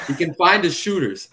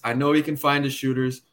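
First: "find" hit high and loud; stress on find. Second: Said in the usual way. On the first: Retold or imitated. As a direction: punch "find" in "He can find his shooters". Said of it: "if you did not just say that".

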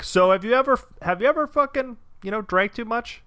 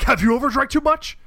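First: Higher, prodding questioning voice; mock senator question. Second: High, loud, defensive echo; hammed-up indignant retort; mock Kavanaugh throwback. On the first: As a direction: poke at him like a careful senator. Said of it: "Klobuchar would just be like". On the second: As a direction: fire the question straight back. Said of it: "he's just like".

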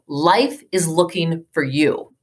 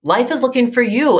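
First: Gentle reassurance. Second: Higher and brighter, pressing the point home; emphatic repeat. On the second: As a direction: repeat it lifted, with conviction. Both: Retold or imitated. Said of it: "He says to me".

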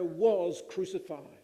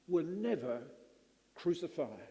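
First: WAS punched, crucified falling away; stress on was. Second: NEVER crucified, with the word never leaned on; stressed never. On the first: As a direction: hit the word was hard. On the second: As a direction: make never land, then let crucified fall. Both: Shown as a demonstration.

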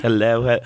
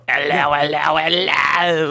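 First: Said in the usual way. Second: Hammed-up old British accent, a touch higher. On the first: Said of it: "I have to do it like I do it on our show". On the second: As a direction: greet everyone like a posh old British host. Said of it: "like, an old British".

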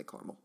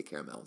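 First: Caramel said as CAR-mul; other people's caramel. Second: Caramel said as CARE-uh-mel; own pronunciation of caramel. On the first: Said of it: "Some people say caramel". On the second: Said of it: "I do say caramel". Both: Shown as a demonstration.

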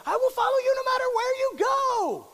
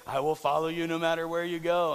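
First: High, loud devoted yell; shouted fan devotion. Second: Said in the usual way. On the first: Retold or imitated. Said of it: "They just yell that out". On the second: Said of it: "Don't just say".

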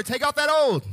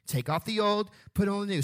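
First: Loud, high and emphatic; say it like you mean it. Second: Said in the usual way. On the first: Shown as a demonstration. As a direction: command it with full conviction. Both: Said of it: "Now say it like you mean it".

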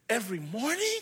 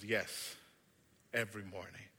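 First: Rising, delighted question; can't believe his luck; boy's surprised rising question; hopeful boy. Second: Low, soft reassurance; calm him, promise it; gentle maker reply. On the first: Boy asks in disbelief. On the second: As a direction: wicker maker's quiet yes. Maker confirms softly. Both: Acted.

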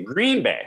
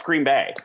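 First: "Green Bay" with GREEN punched high, BAY dropped; wrong stress. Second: "Green Bay" run together, weight on BAY; right stress. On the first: Retold or imitated. Local mimicking sportscasters' mistake, "GREEN Bay" front-stressed. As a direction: lean on "Green", let "Bay" fall away. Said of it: "They say Green Bay wrong". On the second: Shown as a demonstration. Local correcting sportscasters, "Green BAY" stressed at the end. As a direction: say "Green Bay" evenly, landing on "Bay". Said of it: "no, it's Green Bay".

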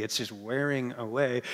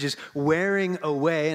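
First: Wearing said low and soft, fading out; tired-sounding. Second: Said in the usual way. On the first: Shown as a demonstration. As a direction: let wearing away sag like a worn-out day. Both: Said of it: "it sounds like it's just, it's a tired day already".

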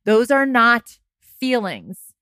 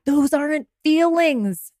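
First: "are" and "not" leaned on slowly; firm correction, "are not" drawn out; stress on are not. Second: Said in the usual way. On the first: Shown as a demonstration.

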